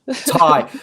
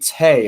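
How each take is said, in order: First: The name rhymes with 'die'. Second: The name rhymes with 'day'. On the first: The speaker calls it right. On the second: The speaker calls it wrong. "Am I saying that properly?"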